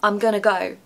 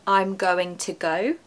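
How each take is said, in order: First: Going to is blended quickly into gonna. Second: Going to is said in full, each syllable clear.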